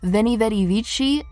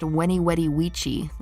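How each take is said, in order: First: The phrase begins with a v sound. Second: The phrase begins with a w sound. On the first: This is the usual modern pronunciation. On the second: This is how it was pronounced in ancient times.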